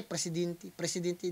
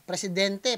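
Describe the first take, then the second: First: Presidente said as presidinti, with i vowels; imitating accent. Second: Said in the usual way. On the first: Reactor mocks the rapper's pronunciation of presidente, soft imitation. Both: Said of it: "oh, di ba?".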